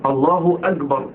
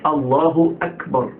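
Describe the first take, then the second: First: أكبر said as "agbar" with a hard g; kaf voiced as gim. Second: أكبر said as "ak-bar" with a crisp unvoiced k; slow الله أكبر, releasing the k of أكبر clearly; clear kaf. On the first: Teacher showing what not to say, mispronounced kaf. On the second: Teacher correcting the second mistake, careful kaf. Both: Shown as a demonstration. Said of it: "الكاف مش جيم".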